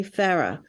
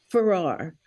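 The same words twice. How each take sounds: First: Farrar with the stress on the first syllable, FARR-uh; UK pronunciation. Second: Said in the usual way. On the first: Shown as a demonstration. Naming the knighted doctor the British way, UK pronunciation. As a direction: pronounce Farrar as "Farra", ending on a light uh. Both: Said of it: "they pronounce it Farrar".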